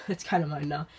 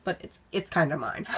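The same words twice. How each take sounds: First: Laughing. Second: Said in the usual way. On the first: Real, not acted. Laughs repeating claim on lamp.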